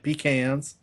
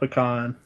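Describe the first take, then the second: First: It is said the Northern US way. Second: It is said the Southern US way.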